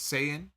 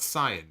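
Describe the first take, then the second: First: The word sounds like 'say-yin'. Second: The word sounds like 'sigh-an'. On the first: The speaker calls it right. "It's Saiyan" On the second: The speaker calls it wrong. "so it's not Cyan now"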